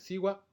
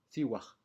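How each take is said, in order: First: The word ends with a glottal stop. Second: The word ends with a small aspiration. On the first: "en lugar de decir siwa" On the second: "puede hacerse con una pequeña aspiración"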